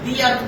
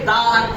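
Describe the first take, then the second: First: The article sounds like 'thee' before the vowel. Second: The article sounds like 'thuh' before the vowel. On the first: The speaker calls it right. "दी अर्थ पढ़ोगे" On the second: The speaker calls it wrong. "दा अर्थ नहीं पढ़ोगे"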